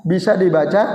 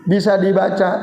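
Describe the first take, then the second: The two takes are said the same way.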